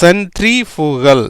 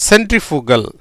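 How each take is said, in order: First: சென்ட்ரிஃபுகல் stretched out part by part; teacher's slow model of சென்ட்ரிஃபுகல்; slow sounding-out. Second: Said in the usual way. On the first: Shown as a demonstration. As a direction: say சென்ட்ரிஃபுகல் slowly, syllable by syllable. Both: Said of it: "எப்படி வந்திருக்கு பாருங்க".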